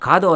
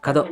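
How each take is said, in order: First: The first vowel is held long. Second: The first vowel is kept short. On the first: The speaker calls it wrong. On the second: The speaker calls it right.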